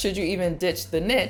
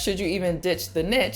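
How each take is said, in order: First: The word niche rhymes with ditch. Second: The word niche rhymes with ditch.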